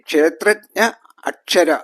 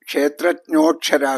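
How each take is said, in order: First: The two words are said separately. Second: The words merge with an o sound.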